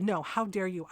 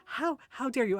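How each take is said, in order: First: Firm, indignant throwing-back, stress on YOU; retold angry retort. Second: Higher, stammered mock outrage; mock indignation. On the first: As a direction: turn the accusation back on her, firmly. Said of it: "I got really fucking mad". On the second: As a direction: imitate a shocked woman sputtering HOW. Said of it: "like, gasping".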